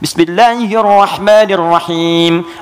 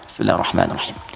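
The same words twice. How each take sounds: First: The phrase is said aloud. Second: The phrase is said quietly.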